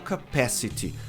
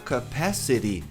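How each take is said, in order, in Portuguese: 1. O t é dito como um t claro. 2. O t soa como um r rápido. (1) "você pode falar capacity" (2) "Se você achar difícil no começo falar capacity"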